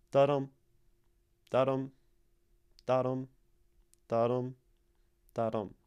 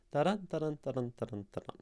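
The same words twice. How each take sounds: First: "Da-dum" as separate, evenly paused heartbeats; heartbeat rhythm. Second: "Da-dun, da-dun" run together without gaps; rapid "Da-dun" beats, fading away; quick heartbeat rhythm. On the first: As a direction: thump out each "da-dum" with weight on "dum". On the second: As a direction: rattle off "da-dun" as a racing pulse. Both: Shown as a demonstration. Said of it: "it sounds similar to a heartbeat".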